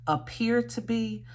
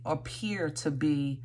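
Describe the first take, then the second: First: Appear to be lifted higher with stress on appear; re-say appear to be, pitch raised, leaning on appear; restated emphasis. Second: Said in the usual way. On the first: Shown as a demonstration. Reader rephrasing her tarot message for the viewer, stressing appear higher. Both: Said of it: "I wanna say it like that".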